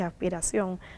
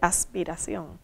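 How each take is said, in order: First: The s is aspirated like a breathy h. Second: The s is a clear hissing sound. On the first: "dije aspiración ... Nosotros aspiramos la S" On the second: "no dije aspiración"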